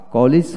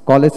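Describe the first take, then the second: First: "কলেজ" with a short i in the second syllable, ko-lij; English "কলেজ". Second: "কলেজ" with an e in the second syllable, ko-lej; Bangla "কলেজ". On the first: Teacher contrasting the English word, "কলেজ" as ko-lij. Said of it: "English শব্দ". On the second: Teacher contrasting the Bangla word, "কলেজ" as ko-lej. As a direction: say "কলেজ" as Bengalis do. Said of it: "কলেজ হচ্ছে বাংলা শব্দ". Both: Shown as a demonstration.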